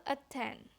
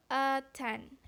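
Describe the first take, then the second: First: "a ten" with the vowel reduced to a schwa, softer; "a ten" spoken as a weak syllable, vowel reduced; weak syllable demo. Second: "a ten" with a full, clearly stressed vowel; "a ten" spoken as a strong syllable, no reduction; strong syllable demo. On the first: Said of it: "in the weak syllable". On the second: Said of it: "in a strong syllable". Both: Shown as a demonstration.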